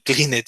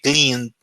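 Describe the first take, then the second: First: The ending is said as an extra syllable. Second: The ending adds no extra syllable. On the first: The speaker calls it wrong. "you don't say clean it" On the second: The speaker calls it right. "you say clean"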